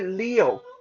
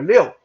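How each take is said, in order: First: The word is said at an ordinary, slower pace. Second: The word is said quickly and clipped. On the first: "like you say" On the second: "you just say it faster"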